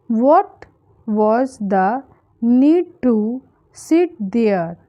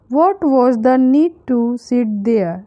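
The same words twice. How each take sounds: First: Broken up with clear pauses between phrases; word by word. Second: Said in the usual way. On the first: Shown as a demonstration. Teacher modelling an English sentence for learners, word by word. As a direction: dictate it in small chunks for learners.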